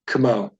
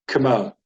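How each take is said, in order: First: The first vowel is barely said, moving on quickly. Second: The first vowel is barely said, moving on quickly.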